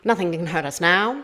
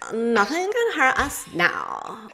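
First: It uses a golden-age old-Hollywood radio voice. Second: It uses a modern Valley Girl voice.

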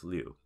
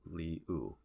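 First: It is said quickly as one syllable. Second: It is said slowly as two syllables. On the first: "you don't say it that slow, so it becomes Liu" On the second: "if you said really slow, it would be like Li-U"

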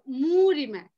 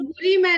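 First: The stress falls on the first syllable मू. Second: The stress falls on the second syllable रि. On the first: The speaker calls it right. "मुंह पे pressure देंगे तो रि अपने आप हल्का हो जाएगा" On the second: The speaker calls it wrong. "मूरि मय नहीं"

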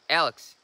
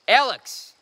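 First: The name is called quietly. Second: The name is called loudly.

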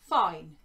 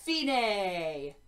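First: The word is said as one syllable. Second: The word is said with two syllables. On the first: The speaker calls it wrong. "No, this is Italian" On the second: The speaker calls it right. "so we always say the last vowel as well"

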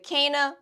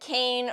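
First: The name is said differently, not like 'Cain'. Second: The name is said like the word 'Cain'. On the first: The speaker calls it right. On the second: The speaker calls it wrong.

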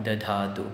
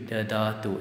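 First: The second d is aspirated, like dh. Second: The second d is plain and unaspirated. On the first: The speaker calls it wrong. "The Dha is added there" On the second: The speaker calls it right. "It's a soft consonant here"

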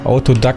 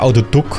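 First: The word is pronounced the English way. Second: The word is pronounced the German way. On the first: "ich habe es irgendwie Englisch ins Gehirn gebrannt" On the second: "heißt es eigentlich"

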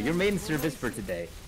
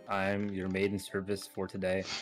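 First: It is said brightly, with energy. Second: It is said flatly, without emotion.

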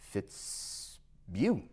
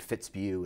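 First: The first note is drawn out long. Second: The first note is short. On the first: This is the alder flycatcher's call. "it extends the first note a lot longer than the other one" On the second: This is the willow flycatcher's call. "instead of saying Fitzbugh"

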